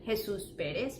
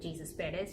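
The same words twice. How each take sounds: First: The name is said with Spanish sounds. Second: The name is said with English sounds. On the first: The speaker calls it right. "You call them" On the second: The speaker calls it wrong. "You don't go around calling them"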